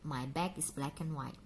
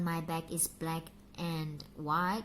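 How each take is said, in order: First: 'And' is reduced and linked to 'black'. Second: 'And' is said fully as a separate word. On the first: The speaker calls it right. "Setelah K itu langsung and" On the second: The speaker calls it wrong. "Jadi bukan"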